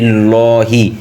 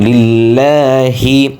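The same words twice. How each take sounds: First: The long vowel is not held for its length. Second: The long vowel is held for its full length. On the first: The speaker calls it wrong. "আমরা অনেকে বলি" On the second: The speaker calls it right. "একাল প্রাণ হবে ... সঠিক উচ্চারণ"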